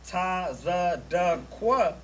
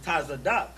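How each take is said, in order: First: The name ends with a separate 'kwa' syllable. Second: The name ends with a short 'k' sound. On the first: The speaker calls it wrong. "It's not" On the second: The speaker calls it right. "it's Tazadak"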